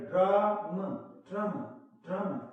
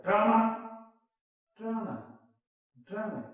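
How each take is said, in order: First: "ड्राम" said short and light, with a singsong lilt; the elegant English way, a short clipped "ड्राम"; right "ड्राम" with the final vowel swallowed; correct drama. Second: The heavy, forced way of saying "ड्रामा"; forced wrong drama. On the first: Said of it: "तो इसको बोला जाएगा". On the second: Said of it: "हमसे जबरदस्ती बुलाया जा रहा है". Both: Shown as a demonstration.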